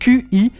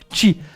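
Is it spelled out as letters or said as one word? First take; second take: letters; one word. First: It is spelled out as two separate letters. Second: It is said as a single one-syllable word.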